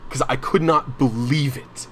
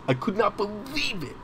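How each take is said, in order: First: Said in the usual way. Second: Much higher, softer, incredulous; disbelief. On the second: Real, not acted. Recalling the boss who yelled, pitched high in real disbelief. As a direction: let the disbelief lift your voice high. Repeats disbelief after angry story.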